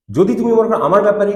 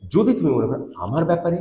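First: Said in the usual way. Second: Grieved intonation. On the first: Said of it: "অন্য সময় এরকমভাবে বলে থাকি". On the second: Shown as a demonstration. Teacher showing the sad reading of the verse, mildly grieved. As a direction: let the hurt show in the line. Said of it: "কিন্তু এখানে".

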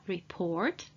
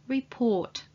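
First: Report, with a prominent R before the T; American R. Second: Report, with no R before the T; silent R. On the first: Teacher shows the American report, R pronounced prominently. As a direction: sound the R in report, American style. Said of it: "R before the T is either pronounced prominently". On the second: Teacher shows the British report, R left silent. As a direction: drop the R in report, British style. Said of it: "or it's not pronounced at all". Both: Shown as a demonstration.

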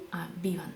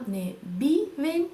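First: Correct form, softer. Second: Wrong form, slow. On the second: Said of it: "Да?". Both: Shown as a demonstration.

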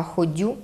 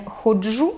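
First: Ходю with soft d, "kho-DYU"; no hushing sound. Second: Said in the usual way. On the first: Shown as a demonstration. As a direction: Podillia ходю, soft d in place of dzh. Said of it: "відсутність чергування шиплячих". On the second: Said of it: "Не ходжу".

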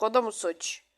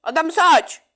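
First: Said in the usual way. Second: Higher, louder indignant question; exasperated retort. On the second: Real, not acted. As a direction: throw it back, fed up: "O da mı suç?". (yüksek sesle sitemkâr soru)

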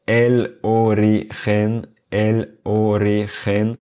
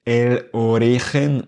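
First: "origen" slow, in equal separated syllables; sans accentuation. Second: "origen" stressed on the middle syllable, o-RI-gen; accent sur ri. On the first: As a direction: spell out o, ri, gen in "origen" with equal weight. (« origen » lentement, syllabes égales, sans accent tonique) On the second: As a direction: punch RI in "origen". (« origen » accentué sur l'avant-dernière syllabe, o-RI-gen) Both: Shown as a demonstration. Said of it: "prononcer chaque mot sans accentuer aucune syllabe".

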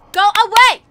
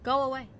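First: Frightened loud go away; loud shout. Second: Said in the usual way. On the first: Real, not acted. Hiding from monster.

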